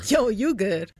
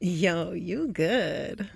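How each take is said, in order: First: It is said in a sarcastic tone. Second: It is said in a flirty tone.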